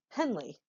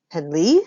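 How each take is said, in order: First: Henley as HEN-lee, falling at the end; weight on HEN, let Henley fall away; stress on first syllable. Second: Henley as hen-LEE, loud rising end; stress on second syllable. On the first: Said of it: "One is my name". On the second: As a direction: throw the weight of Henley onto a rising LEE. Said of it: "the other is not". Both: Shown as a demonstration.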